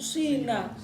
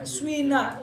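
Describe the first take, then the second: First: The first vowel is a pure i. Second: The first vowel blends u and i. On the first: "Ada ya murni sina" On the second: "Ismam itu dibaca swina, yaitu harokat doma dengan kasroh kumpul"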